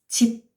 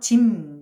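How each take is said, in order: First: The word ends in a b sound. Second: The word ends in a nasal m sound. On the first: "우리 집이 할 때는" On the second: "비음화가 돼서 짐 이렇게 됐죠"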